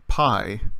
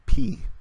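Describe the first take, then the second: First: The vowel sounds like the vowel in 'eye'. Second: The vowel sounds like the vowel in 'see'. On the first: This is how it is commonly said in math class. The speaker calls it wrong. "the name is often pronounced when we learn it there like pi" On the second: This is how the Greek letter name is said. The speaker calls it right. "the name of the Greek letter should actually be pronounced P"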